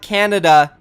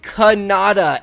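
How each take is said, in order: First: The name sounds like the country Canada. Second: The name sounds like Kanata, not the country. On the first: The speaker calls it wrong. "I mispronounced his name yesterday. It's not Canada" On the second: The speaker calls it right. "It is Kanata"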